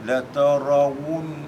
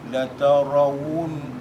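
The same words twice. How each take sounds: Both takes have the same delivery.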